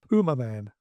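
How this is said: The name is said with an American pronunciation. The speaker calls it wrong. "American co-stars all say Puma Man"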